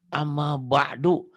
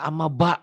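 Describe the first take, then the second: First: The last word ends in a vowel u. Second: The last word ends in a glottal stop.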